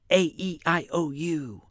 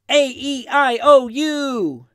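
First: The vowels are whispered very quietly. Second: The vowels are cheered out loud. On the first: "we'll be really quiet. We'll whisper it" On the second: "I know usually when you cheer or chant, it's a little louder"

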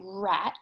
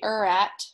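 First: The word starts directly with the R sound. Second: An extra vowel sound comes before the R. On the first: The speaker calls it right. "we say rat" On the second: The speaker calls it wrong. "We don't say er-at"

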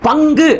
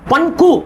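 First: The nasal is a velar ng sound. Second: The nasal is an alveolar n sound. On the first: "பங்கு அப்படிங்கிற சொல்ல" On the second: "இன்னு கூட்டல் க, ங"

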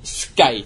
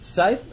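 First: The word begins with an sk sound. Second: The word begins with a plain s sound. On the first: The speaker calls it wrong. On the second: The speaker calls it right.

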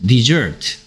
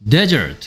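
First: The stress is on the second syllable. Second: The stress is on the first syllable. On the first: It means to abandon. "s 뒤에 있는 e에 강세를 줘서 dessert라고 읽으면" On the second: It means a dry sandy region. "여기에 강세가 가면 desert라고 읽고 뜻은 뭐가 된다? 사막이 됩니다"

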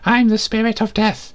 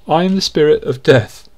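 First: It is spoken in a put-on character voice. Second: It is read in a normal speaking voice. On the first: The speaker calls it right. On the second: The speaker calls it wrong.

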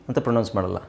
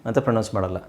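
Both takes have the same delivery.

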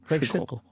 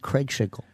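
First: The final L is clearly heard. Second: The voice fades out before the final L. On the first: "there it is" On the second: "voice drops out just at the end of his name. You can't hear that L properly"

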